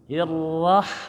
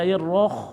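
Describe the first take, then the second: First: The vowel after the r is an open a. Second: The vowel after the r is a rounded o. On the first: The speaker calls it right. "Itu ha kecil bukan ha besar ya" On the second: The speaker calls it wrong. "jangan dibaca hirroh"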